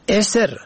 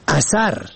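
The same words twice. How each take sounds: First: اسر said "eser", opening on a short e; kasra on first letter. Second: اثر said "asar", short a in both syllables; fatha on first two letters. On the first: Radio language lesson on look-alike Persian words, opening e vowel. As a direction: say اسر with e, not a. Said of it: "به کسر اول و سکون دوم". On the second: Radio language lesson on look-alike Persian words, short a vowels. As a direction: say اثر as "a-sar". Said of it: "ر به فتح اول و دوم". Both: Shown as a demonstration.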